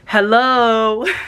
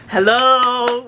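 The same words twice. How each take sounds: First: It is said in a gentle, plain way. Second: It is said in a tough, stern way.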